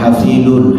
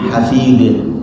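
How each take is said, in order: First: The word ends with an added -un syllable. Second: The word ends on the d, without -un. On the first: The speaker calls it wrong. "bukan hafidun" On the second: The speaker calls it right. "dinamakan hafid"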